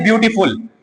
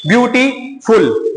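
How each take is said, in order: First: Said in the usual way. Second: "ब्यूटीफुल" slowly split into ब्यू-टी-फुल; syllable by syllable. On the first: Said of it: "ब्यूटीफुल को अगर बोलेंगे". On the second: Shown as a demonstration. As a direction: stretch "ब्यूटीफुल", pausing before the final फुल. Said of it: "दो या तीन syllable का use होता है". ("ब्यूटीफुल" को धीरे-धीरे अक्षरों में तोड़कर)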